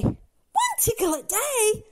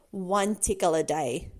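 First: High, slow, incredulous question; dismayed disbelief. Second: Low, slow warning; firm reminder. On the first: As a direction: echo the rule in dismay. Dismayed echo of the rule. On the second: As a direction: lay down the rule slowly. Stern reminder of the rule. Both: Acted.

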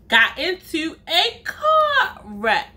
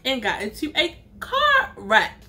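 First: Drawn out and higher, laughing; mock-shocked punchline; slow emphatic repeat. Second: Said in the usual way. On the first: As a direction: stretch each word for the reveal.

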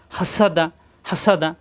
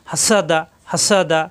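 No difference in how they are said.

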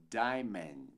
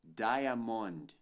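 First: "diamond" as DAI-mend, two slow syllables; correct DIAMOND. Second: "diamond" as DAI-a-mond, three syllables with full O; wrong DIAMOND. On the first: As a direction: reduce the ending of "diamond" to "mend". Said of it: "mas sim diamond". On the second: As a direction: say "diamond" as spelled, learner's mistake. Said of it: "Não dizemos diamond". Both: Shown as a demonstration.

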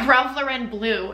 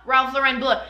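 First: Said in the usual way. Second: Bleu said the French way, like "bleuh". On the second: Shown as a demonstration. Naming the cologne to viewers, Bleu in French. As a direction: Ralph Lauren Bleu with a French Bleu, a touch higher. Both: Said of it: "S-, not Bleu".

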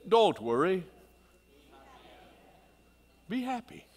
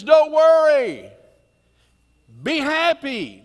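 First: Jamaican impression. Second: Sung, the pastor belts the refrain to the congregation, loud and slow. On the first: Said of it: "That was my best Jamaican impersonation". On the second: Retold or imitated. Sung, loud high "Don't worry. Be happy." dragged out. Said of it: "Over and over he says".

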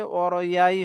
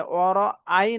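First: "ওয়ারআই" said as waro-yai; mistaken y sound. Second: "ওয়ারআই" with a clean break before ai; correct hamza. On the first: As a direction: glide through a y into ai in "ওয়ারআই". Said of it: "হয়ে যায়". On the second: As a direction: say "ওয়ারআই" as waro-ai, no y glide. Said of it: "না বলে". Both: Shown as a demonstration.

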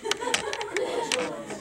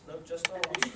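First: Correcting the class. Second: Said in the usual way. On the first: Real, not acted.

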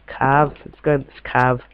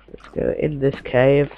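First: Mock-posh, "cave" said as "cahv"; posh accent. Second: Said in the usual way. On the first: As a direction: put on a posh British accent. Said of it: "I don't know why I'm speaking so posh". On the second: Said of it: "speaking so posh".

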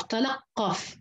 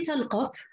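First: «تلقف» with an open lām and a doubled qāf; قاف مشددة ولام مفتوحة. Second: «تلقف» with a still lām and a light, single qāf; قاف مخففة ولام ساكنة. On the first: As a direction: say «تلقف» as tala-qqaf, leaning on the qāf. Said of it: "وتشديد القاف". («تلقف» بفتح اللام وتشديد القاف) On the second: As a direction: say «تلقف» as tal-qaf, no doubled qāf. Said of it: "بتخفيف القاف وإسكان". («تلقف» بتسكين اللام وتخفيف القاف) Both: Shown as a demonstration.

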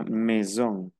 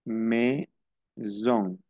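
First: Said in the usual way. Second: MAISON split as "meh... zon", with a gap; syllable-by-syllable demo. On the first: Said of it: "Entonces sería". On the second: Shown as a demonstration. Teacher showing that A and I sound like E, syllable-by-syllable demo. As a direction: break MAISON into two slow syllables, AI as E. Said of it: "se pronuncia como una E".

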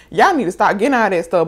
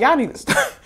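First: Said in the usual way. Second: High, laughing imitation of the mechanic; laughing mock scolding. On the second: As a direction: say it through a laugh, teasing.

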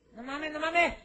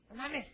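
First: High, loud repeated cry; higher and louder as the ant panics; panicked shout. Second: Said in the usual way. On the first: Acted. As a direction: escalate into a panicked yell.

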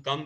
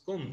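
First: Said in the usual way. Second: "cum" with a short oo as in put; Yorkshire vowel. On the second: Shown as a demonstration. Teacher showing Yorkshire dialect, "cum" with short oo. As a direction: say "cum" as coom, Yorkshire style. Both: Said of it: "in Yorkshire dialect".

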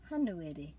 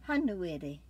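No difference in how they are said.

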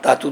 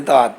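First: ਧਾਤੂ ending in an audible oo; sounded final u. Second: ਧਾਤ stops on the t; silent final vowel. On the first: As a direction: add an oo after the t in ਧਾਤੂ. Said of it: "ਇਹ ਨਹੀਂ ਬੋਲਦੀ". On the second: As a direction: say ਧਾਤ with no u after it. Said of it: "ਅਸੀਂ ਕਿਸ ਤਰ੍ਹਾਂ ਪੜ੍ਹ ਸਕਦੇ ਹਾਂ". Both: Shown as a demonstration.

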